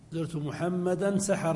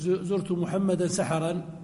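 First: The last word ends without a final 'an' sound. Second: The last word ends with a final 'an' sound. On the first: The visit was at dawn of one specific night. "فتعرف أنني زرته متى؟ سحر البارحة" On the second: The visit was at some unspecified dawn. "لكن لو قلت زرت محمدا سحرا، يعني زرته في آخر"

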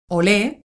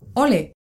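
First: The stress is on the last syllable. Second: The stress is on the first syllable. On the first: "con tilde en la E" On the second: "sin tilde en la E"

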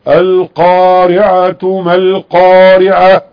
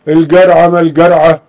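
First: The word is said with classical Arabic pronunciation. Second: The word is said with colloquial dialect pronunciation. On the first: The speaker calls it right. "لا يقرأ القرآن إلا كما أنزل" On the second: The speaker calls it wrong. "أنت تتكلم بلهجتك العامية مع الناس أنت حر، لكن القرآن لا يقرأ إلا كما أنزل"

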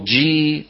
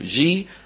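First: The j sound is firm, not softened. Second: The j sound is soft and relaxed. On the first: This is the standard classical pronunciation. The speaker calls it right. "هكذا النطق الفصيح" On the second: This is a colloquial pronunciation. The speaker calls it wrong. "عامي رخو"

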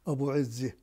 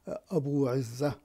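First: The name is said in the local village form. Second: The name is said in its standard form. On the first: "وكان ينطق في البلدة أبو عزي. هكذا كان ينطق" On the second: "والاسم هو أبو عزة"

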